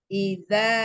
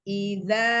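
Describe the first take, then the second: The two takes are said the same way.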